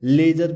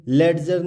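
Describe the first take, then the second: First: लेजर with no D before the j; लेजर said smoothly with only a j sound; silent D. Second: लेडजर with the D wrongly voiced before the j; लेडजर with an audible d-j cluster; sounded D. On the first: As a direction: drop the D in लेजर. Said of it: "इसको हम लेजर पढ़ेंगे". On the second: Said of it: "ये लेडजर नहीं पढ़ेंगे". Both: Shown as a demonstration.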